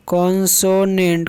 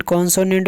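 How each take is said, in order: First: कॉन्सोनेंट said slowly, each syllable clear for pupils; teacher drawing out कॉन्सोनेंट so the class can copy it; slow spelled-out consonant. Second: Said in the usual way. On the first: Shown as a demonstration. Teacher to class, spelling out the English word, slowly pronounced. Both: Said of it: "जिसको बोलते हैं कॉन्सोनेंट".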